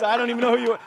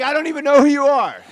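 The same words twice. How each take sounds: First: Said in the usual way. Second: Louder and higher repeat of the put-down; scoffing mock disbelief, raised voice; punched-up mock dismissal. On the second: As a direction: hit it harder the second time, mocking.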